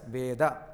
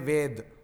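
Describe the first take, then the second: First: The word ends on a short vowel sound. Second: The word ends on a consonant sound. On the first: This is the Sanskrit way of saying it. "in Sanskrit, it is pronounced as Veda" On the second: This is the Hindi way of saying it. "In North India, people will say Ved"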